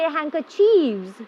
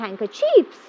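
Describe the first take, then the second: First: The word ends with a v sound. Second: The word ends with an f sound. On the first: The speaker calls it wrong. "We don't say handkerchiefs" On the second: The speaker calls it right. "Handkerchief become handkerchiefs"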